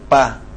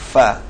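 First: Both lips close fully, stopping the air. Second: The upper teeth touch the lower lip, letting air out. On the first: The speaker calls it wrong. "jadi bukan bibir antara bibir terkatup" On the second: The speaker calls it right. "ujung gigi atas bersentuh dengan bibir bawah"

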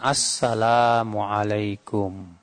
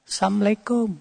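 First: The greeting begins with the full 'assalam'. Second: The greeting begins 'assam', dropping the 'la'. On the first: It wishes peace on the listener. The speaker calls it right. "Ucapkan assalamualaikum" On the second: It wishes death on the listener. The speaker calls it wrong. "Bukan assalamualaikum. ... Sam itu artinya kematian"

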